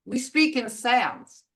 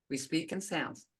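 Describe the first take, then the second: First: "speak" pressed, falling end; stress on speak. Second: Quieter, lower echo; soft repeat. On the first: Teacher driving home that language is sounds, stressing speak. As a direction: lean on "speak". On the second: Teacher repeating the point softly to the class. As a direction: let it sink in softly. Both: Shown as a demonstration. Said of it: "That's why I stress sounds".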